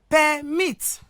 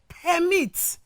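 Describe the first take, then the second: First: The stress is on the second syllable. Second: The stress is on the first syllable. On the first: The word is used as a verb. "we equally have here verb" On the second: The word is used as a noun. "we have here noun"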